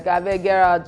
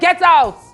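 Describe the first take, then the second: First: It is said in a light, joking tone. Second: It is said in a harsh, angry tone. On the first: It is meant as a joke. "The person will laugh" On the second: It is meant seriously and gives offense. "How you said it is different"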